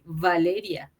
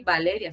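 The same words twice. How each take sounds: First: The name begins with a v sound. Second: The name begins with a b-like sound. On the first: This is how it is said in Italy. The speaker calls it right. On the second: This is how it is said in Mexico. The speaker calls it wrong.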